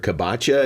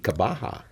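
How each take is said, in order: First: The name is said with an anglicized sound. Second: The name is said with the native Polish sound. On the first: The speaker calls it wrong. "I just make sure Kabacha, is that right?" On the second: The speaker calls it right. "in your native uh, Poland, uh, it would be Kabaha"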